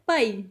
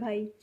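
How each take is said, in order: First: It is said forcefully with more stress. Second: It is said gently and politely.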